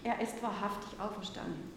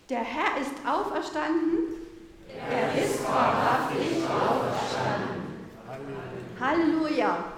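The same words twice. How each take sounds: First: Said in the usual way. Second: Slow, full-voiced call of faith; loud, slow and jubilant: "Er ist wahrhaftig auferstanden"; loud Easter proclamation. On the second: Real, not acted. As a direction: proclaim it wholeheartedly and slowly. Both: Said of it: "nochmal von ganzem Herzen laut sagen".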